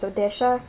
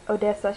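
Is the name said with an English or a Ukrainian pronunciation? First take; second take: Ukrainian; English. First: The name has a Ukrainian-style pronunciation. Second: The name has a plain English pronunciation. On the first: "she says Odesha" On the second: "she doesn't say Odessa"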